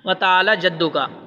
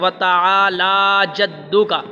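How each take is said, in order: First: The vowel after 'l' is short. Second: The vowel after 'l' is drawn out long. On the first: The speaker calls it wrong. "ये गलत है" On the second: The speaker calls it right. "लाम के ऊपर देखो खड़ा ज़बर है"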